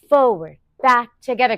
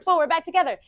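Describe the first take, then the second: First: It is said at a normal pace. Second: It is said faster still.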